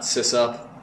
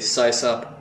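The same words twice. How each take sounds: First: The first syllable sounds like 'sissy'. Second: The first syllable does not sound like 'sissy'. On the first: The speaker calls it wrong. "I thought SysOp sounded too much like sissy" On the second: The speaker calls it right. "I say SysOp"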